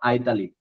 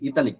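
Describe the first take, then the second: First: The word begins with an 'eye' sound. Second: The word begins with an 'ee' sound. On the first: This is the form used in other countries. "বাইরের দেশে এটাকে উচ্চারণ করা হয় আইতালিক।" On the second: This is the form local listeners know best. "আপনারা ইতালিক বললে বেশি বুঝবেন।"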